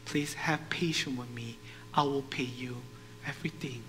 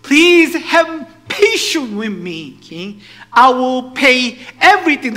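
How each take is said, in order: First: Soft, low plea; subdued pleading. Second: High, booming plea drawn out slowly; loud pleading. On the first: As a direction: beg quietly, almost under your breath. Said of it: "pleading with this man". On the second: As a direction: beg the king at full volume. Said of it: "pleading with him". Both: Acted.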